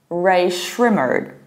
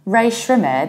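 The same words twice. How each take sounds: First: The name ends with a pronounced R sound. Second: The name ends without a pronounced R sound. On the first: "just pronouncing final R" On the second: "in the British accent"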